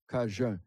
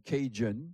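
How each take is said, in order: First: It is said with a standard French pronunciation. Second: It is said with an English pronunciation. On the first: "que les Français ont repris comme Cajun" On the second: "c'est les Anglais, les Anglo-Américains qui nous ont traités de Cajun"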